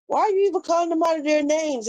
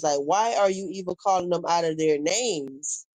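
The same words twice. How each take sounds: First: Higher and faster, exasperated; exasperated repeat. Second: Said in the usual way. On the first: Real, not acted. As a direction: fire the question off in disbelief. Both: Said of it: "repeats the question more forcefully".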